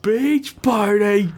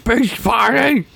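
First: High, slow silly captain drawl; hammed-up Brack impression. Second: Brack voice. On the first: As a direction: pitch it way up and stretch it. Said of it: "Brack impression again". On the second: Retold or imitated. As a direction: mimic the silly voice back, up high. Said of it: "echoes Brack voice".

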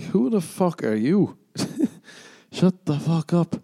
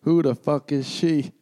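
First: Incredulous comeback. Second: Mock jealous stranger. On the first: Retold or imitated. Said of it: "I'm like". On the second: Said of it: "someone I don't know is like".

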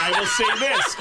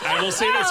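First: Said in the usual way. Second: Louder repeat. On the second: Real, not acted.

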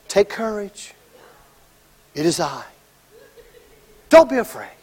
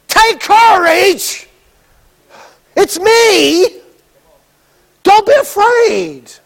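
First: Much softer, lower calming words; soft reassurance. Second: Higher, slow, lively cheer-up; excited encouragement. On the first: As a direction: hush them gently. Jesus calming scared disciples. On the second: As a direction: call out bright and eager. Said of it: "No, no". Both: Retold or imitated.

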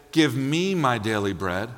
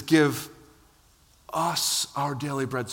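First: Said in the usual way. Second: "Give", a pause, then "us our daily bread." said slowly and weighted on "us"; stress on us. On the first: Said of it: "And he doesn't say". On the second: Shown as a demonstration. Preacher correcting the prayer, stressing "us". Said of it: "He says".

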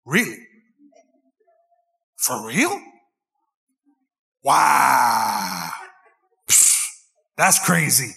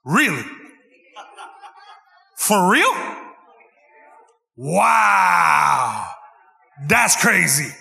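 First: Lower, hammed-up fake interest; mock-interested stock replies, lower; mock attentive listening. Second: The same stock replies, louder, hammed-up; louder mock wow-and-crazy chant; louder call-along. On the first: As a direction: play the nodding husband, low and put-on. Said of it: "you just gotta go on repeat". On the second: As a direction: lead the crowd in fake interest, loud. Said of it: "Come on, do it with me". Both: Shown as a demonstration.

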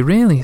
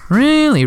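First: Said in the usual way. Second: High, loud amazed exclamation; mock-astonished, much higher and louder; surprised. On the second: Mother marvels at son's story.

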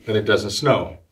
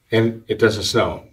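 Both takes have the same delivery.

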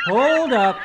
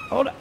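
First: Sudden high squeaky halt; high character voice. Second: Said in the usual way. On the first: Acted. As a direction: stop everything in a high voice. High put-on voice interrupts.

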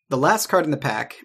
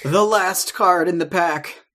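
First: Said in the usual way. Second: Slow, higher and louder, like a game show reveal; dramatic announcement. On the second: Shown as a demonstration. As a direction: announce it with a big flourish.

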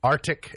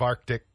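First: ARCTIC with the first C silent, AR-tic; mispronounced arctic. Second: Said in the usual way. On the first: Shown as a demonstration. Host listing mistakes, ARCTIC said as AR-tic. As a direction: drop the middle K sound in ARCTIC. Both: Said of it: "instead of Arctic".

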